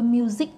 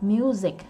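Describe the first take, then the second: First: The last syllable ends plain, without a clipped drop. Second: The last syllable ends with a clipped, low drop. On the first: The speaker calls it wrong. "chứ đừng có music nha" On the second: The speaker calls it right. "dấu nặng vậy đó ha"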